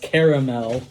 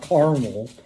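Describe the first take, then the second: First: The word is said with three syllables. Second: The word is said with two syllables. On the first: It names the sweet flavoring. The speaker calls it right. "It's caramel" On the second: It names a city. The speaker calls it wrong. "not caramel. Carmel is a city in Indiana"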